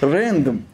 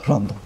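First: The word is said with an English pronunciation. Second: The word is said with a Turkish pronunciation. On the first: The speaker calls it right. "Random diyeceksin diyor" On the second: The speaker calls it wrong. "aksanım Arnavut değil bir aksan olduğu için tam İngilizce kelimeleri telaffuz edemiyor olabilirim"

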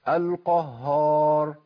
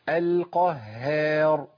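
First: The ha sound is heavy, like the whole word. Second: The ha sound is light, with spread lips. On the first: The speaker calls it wrong. "بيثبت هيئه واحده وهي التفخيم" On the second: The speaker calls it right. "وهذه حاله ترقيق"

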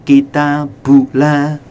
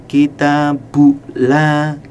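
Both takes have the same delivery.

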